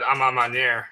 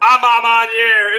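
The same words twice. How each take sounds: First: Unsure, lower and softer "Amamanier"; "Amamanier" attempted low and tentatively; botched French name. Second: Slow, louder, higher "Amamaniere"; "Amamaniere" drawn out loud and high for fun; mangled French name. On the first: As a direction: stumble through "Amamanier" with a Southern tongue, voice dropping. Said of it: "I'm gonna fuck that word up". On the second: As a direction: relish "Amamaniere", stretched out in Southern-tinged bad French. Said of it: "I wish I could say it with the proper French accent". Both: Real, not acted.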